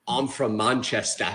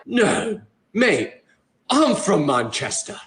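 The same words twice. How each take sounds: First: Low, soft, slow fake Manchester accent; hesitant put-on British, pitched down; pretend British accent. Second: Imitated British local, slow; put-on British accent at full voice, drawn out. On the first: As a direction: bluff a British accent, drawn out. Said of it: "I kept pretending to be British". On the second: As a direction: play a real Brit from Manchester. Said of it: "that exact same accent".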